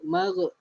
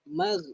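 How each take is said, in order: First: The gh ends with a bouncing echo. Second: The gh ends smoothly without bouncing. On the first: The speaker calls it wrong. "huruf gha jangan lantunkan... Salah, magh salah" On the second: The speaker calls it right. "Yang betul magh"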